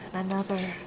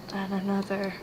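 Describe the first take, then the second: No difference in how they are said.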